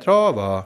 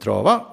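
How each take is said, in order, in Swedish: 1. Tonhöjden går ner på ordet. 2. Tonhöjden går upp på ordet. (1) "så inte man går ner" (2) "Och så uppåt"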